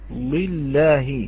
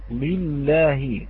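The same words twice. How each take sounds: The two takes are said the same way.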